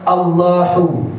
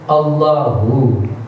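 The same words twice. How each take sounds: First: The h is light, made in the throat. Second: The h is deep, vibrating in the chest. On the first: The speaker calls it wrong. "jangan Allahu, Allahu, salah" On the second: The speaker calls it right. "hu, ha besar"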